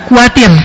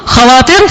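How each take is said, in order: First: The word starts with a plain k sound. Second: The word starts with a raspy kh sound. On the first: This is the modern form. "susah nyebut kha, akhirnya kuatir" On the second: This is the older form. "Dulu khawatir"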